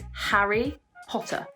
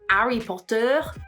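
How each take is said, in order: First: The H at the start is pronounced. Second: The H at the start is dropped. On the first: The speaker calls it right. "make sure that we pronounce that H" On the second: The speaker calls it wrong. "it's not"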